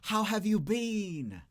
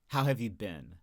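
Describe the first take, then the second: First: The word been sounds like bean. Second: The word been sounds like bin. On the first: "like a faux British accent" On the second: "most Americans say bin"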